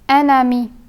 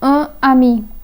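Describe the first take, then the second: First: The n sound links onto the next word. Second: The n sound is not linked to the next word. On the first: The speaker calls it right. "they would sound like an ami" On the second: The speaker calls it wrong. "and not as un ami"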